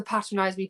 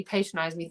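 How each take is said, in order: First: Patronize with a short A, as in pat; British PATRONIZE. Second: Patronize with a long A, as in pay; American PATRONIZE. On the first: Singer recalling the word difference, British short-A patronize. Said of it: "like the patronize me". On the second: Singer recalling the word difference, American long-A patronize. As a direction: say patronize as PAY-tronize, softer. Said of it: "patronize me thing". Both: Shown as a demonstration.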